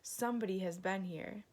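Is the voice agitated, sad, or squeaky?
agitated. It is growled in an agitated voice.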